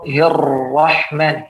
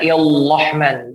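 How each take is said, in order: First: The r sound is a clear r. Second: The r sound comes out like an l. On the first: The speaker calls it right. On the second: The speaker calls it wrong.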